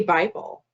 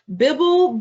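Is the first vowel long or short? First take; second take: long; short. First: The first vowel is long. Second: The first vowel is short. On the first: "why didn't you say Bible?" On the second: "How did you know that this first I was going to be short?"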